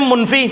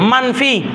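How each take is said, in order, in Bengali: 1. প্রথম স্বরধ্বনিটি 'u' এর মতো শোনায়। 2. প্রথম স্বরধ্বনিটি 'a' এর মতো শোনায়। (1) "মুনফি বললেও শুদ্ধ না" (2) "সুন্দর হচ্ছে মানফি পড়া"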